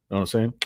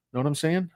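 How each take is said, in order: First: Said in the usual way. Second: A higher, teasing know what I'm saying; mock salesman wink; sly wink. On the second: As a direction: nudge the viewers playfully.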